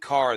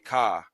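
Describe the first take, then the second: First: The final r sound is pronounced. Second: The final r sound is dropped. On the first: "instead of saying car" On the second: "they say ka"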